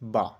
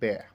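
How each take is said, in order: First: The vowel is an open 'a' as in father. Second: The vowel is a front 'a' as in cat. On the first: "এতে হচ্ছে আকার" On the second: "এ মানে হচ্ছে জ ফলা আকার"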